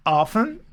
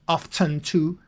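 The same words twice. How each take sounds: First: "often" said as OFF-en with a silent t; often without t. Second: "Often" said as OFF-ten with a clear t. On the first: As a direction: say "often" with no t sound. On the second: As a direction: say "Often" sounding the t. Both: Shown as a demonstration. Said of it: "two pronunciations for often".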